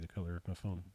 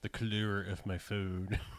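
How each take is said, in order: First: It is said in the speaker's normal accent. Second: It is said in a put-on British accent.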